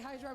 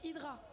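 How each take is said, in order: First: The name has a plain English R. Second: The name has a rolled French R.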